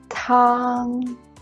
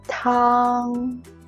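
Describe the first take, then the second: First: The pitch stays high and level. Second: The same.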